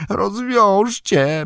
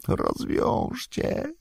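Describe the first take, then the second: First: High, slow, voiced creature plea; mumbled plea. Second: High, slow, whispered creature plea; mumbled whisper. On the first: Gollum begs his captors, high and slow. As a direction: draw the word out high, now with voice. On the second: Gollum begs his captors, whispered and slow. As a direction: breathe the word out slowly, high and voiceless. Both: A narrator's reading. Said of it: "bełkotał".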